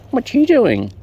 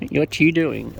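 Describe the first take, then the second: First: High and loud, sing-song at the bird; high, louder pet-talk question; high baby talk. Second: Said in the usual way. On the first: Acted. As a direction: coo loudly at the bird like a baby. Talking to birds.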